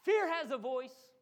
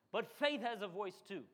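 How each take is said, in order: First: Fear drawn out, louder and slower, rising; stress on fear. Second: Said in the usual way. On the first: Shown as a demonstration. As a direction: lean hard and slow on fear. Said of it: "preacher stressing fear". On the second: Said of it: "contrast with fear line".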